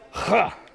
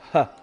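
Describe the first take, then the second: First: A harsh rasping h from the back of the throat. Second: A light breathy h from the open throat. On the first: This is how the sound is made in Klingon. "in Klingon, it's huh, huh. Back of the throat, all the phlegm" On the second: This is how the sound is made in English. "like in English and, and similar languages"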